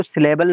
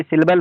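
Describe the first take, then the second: First: First "सिलेबल" as si-LE-bal, full middle vowel; common pronunciation. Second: Second "सिलेबल" shortened to SIL-bal; IPA pronunciation. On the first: Teacher showing what not to say, first "सिलेबल" as si-le-bal. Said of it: "सिलेबल नहीं बल्कि सिलेबल होता है". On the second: Teacher correcting by IPA, second "सिलेबल" as sil-bal. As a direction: drop the middle vowel in the second "सिलेबल". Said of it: "बल्कि सिलेबल होता है". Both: Shown as a demonstration.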